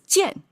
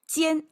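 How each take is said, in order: First: The pitch dips down and then rises. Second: The pitch stays high and level. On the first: It names a repeated action. "what's the third tone doing here? ... this third tone comes down and up" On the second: It names a gap. "it's a flat tone"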